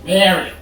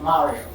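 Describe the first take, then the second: First: Mario said as "Mary-o"; American pronunciation. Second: Said in the usual way. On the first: Shown as a demonstration. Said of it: "I don't know why I went American". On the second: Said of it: "my pronunciation of Mario".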